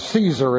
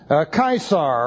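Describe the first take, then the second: First: The name is said in the English way. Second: The name is said in the Latin way.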